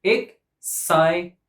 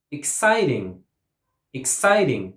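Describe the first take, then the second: First: Slow "Exciting" in three separate beats; syllable by syllable. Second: "Exciting" with CIT stressed; stress on second syllable. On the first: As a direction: break "Exciting" apart, ex, cit, ing. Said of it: "Three syllables". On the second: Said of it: "stress goes on the second syllable". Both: Shown as a demonstration.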